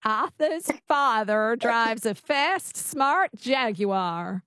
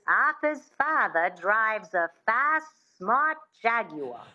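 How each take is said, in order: First: Slow, careful Mid-Atlantic try; practising the Mid-Atlantic twang slowly; attempted Mid-Atlantic accent. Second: Slow Mid-Atlantic accent with a light twang; careful Mid-Atlantic accent demo. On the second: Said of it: "that sound". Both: Shown as a demonstration.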